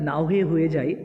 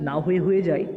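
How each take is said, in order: Both takes have the same delivery.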